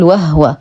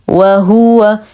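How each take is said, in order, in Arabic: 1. الهاء تُنطق بلا حركة. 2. الهاء عليها ضمة كاملة. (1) "فلا نقول وهو" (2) "نتم ضمة الهاء"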